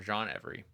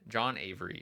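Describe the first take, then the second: First: The surname begins with an 'eh' vowel. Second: The surname begins with an 'ay' vowel. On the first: "E V E R Y" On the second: "A V E R Y"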